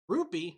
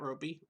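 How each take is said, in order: First: The first vowel sounds like 'oo'. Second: The first vowel sounds like 'oh'. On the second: "not Ropey"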